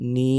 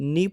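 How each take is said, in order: First: The vowel is held long. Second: The vowel is short. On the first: "নুন খারাজের নি" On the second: "নুনজের নি পড়েছি"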